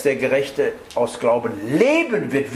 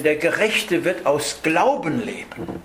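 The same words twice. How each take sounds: First: Strong emphasis on leben; stress on leben. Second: Glauben pitched up as the peak of the line; stress on Glauben. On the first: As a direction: save the big peak for leben. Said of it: "würde ich die Betonung auf Leben legen". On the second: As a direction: lean on the word Glauben, let the rest fall. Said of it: "würde ich die Betonung auf Glauben legen". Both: Shown as a demonstration.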